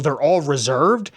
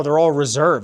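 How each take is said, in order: First: "They're all reserved?" drawn out slowly, rising at the end; disbelieving echo question. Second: Said in the usual way. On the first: Retold or imitated. Echoes clerk's words in disbelief.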